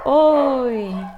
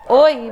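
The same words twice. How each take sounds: First: The word is drawn out and prolonged. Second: The word is said short and clipped. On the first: This is the sound with reverberation. "dá aquela impressão de um som mais prolongado" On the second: This is the sound without reverberation. "em vez de você escutar oi"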